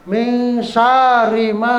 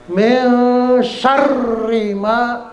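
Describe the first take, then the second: First: "syarri" as saa-ri, long a and single r; wrongly lengthened. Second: "syarri" with short a and long doubled r; slow, higher "Min syarri ma", weight held on r; tasdid. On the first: Teacher imitating readers' mistake, drawn-out a in "syarri". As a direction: slowly drag the a of "syarri", no doubled r. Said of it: "ada orang bacanya panjang". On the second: Teacher correcting the mistake, doubled r in "syarri". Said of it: "Jadi tasdid". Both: Shown as a demonstration.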